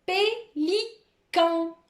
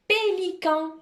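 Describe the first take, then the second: First: Pélican high and very slow, three separate syllables. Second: Pélican high, syllables linked without pauses; joined-up dictation. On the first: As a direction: pause between pé, li and can. Teacher dictates a word by syllables. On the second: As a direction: say Pélican as one carefully sounded word. Same dictated word said joined. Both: Shown as a demonstration.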